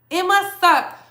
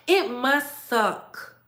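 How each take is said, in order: First: It must suck said higher and louder, leaning on must; mock pity. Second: Slow mock pity. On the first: Higher and louder to her rivals, stressing must. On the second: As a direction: draw out It must suck with fake pity. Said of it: "repeated louder". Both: Shown as a demonstration.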